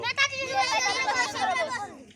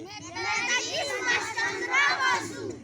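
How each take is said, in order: First: It is said fast. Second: It is said slowly.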